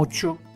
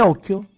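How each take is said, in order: First: The middle consonant is a ch sound. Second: The middle consonant is a hard k sound. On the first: This is the Genoese dialect form. "I genovesi, nel loro dialetto ovviamente, ... dicono occhio" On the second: This is the standard Italian form. "per dire occhio"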